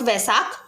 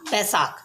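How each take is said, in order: First: The word begins with a v sound. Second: The word begins with a b sound. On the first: The speaker calls it wrong. "Not वैसाख" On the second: The speaker calls it right. "Local language होती है उसमें हम इसको बोलते हैं बैसाख"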